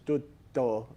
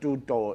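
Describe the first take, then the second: First: The T sound is held, with a stop. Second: The T sound is short and single. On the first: The speaker calls it right. "it's tutto, almost like a stopping" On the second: The speaker calls it wrong. "it's not tutto"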